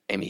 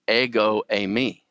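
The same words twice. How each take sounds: First: Said in the usual way. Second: "ego eimi" slowed, with "ego" leaned on; stress on EGO. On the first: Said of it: "he just doesn't say". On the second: Shown as a demonstration. Teacher showing Jesus' emphatic form, stress on ego. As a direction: hit "ego" before "eimi". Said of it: "throws the pronoun in there as well".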